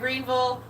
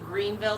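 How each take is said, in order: First: The name ends with a 'bull' sound. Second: The name ends with a clear 'ville' sound. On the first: The speaker calls it right. "Now there it is. Bam" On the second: The speaker calls it wrong. "you're pronouncing it wrong"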